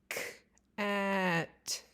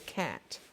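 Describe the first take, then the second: First: The word is said slowly, sounds pulled apart. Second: The word is said at normal speed. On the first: "Now listen to me say it slower" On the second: "Listen to me say cat"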